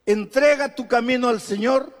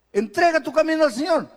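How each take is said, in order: First: Said in the usual way. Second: "Entrega tu camino al Señor" repeated higher, leaning hard on "camino"; pressing the verse home. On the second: Shown as a demonstration. Preacher urging the congregation to trust, stressing "camino".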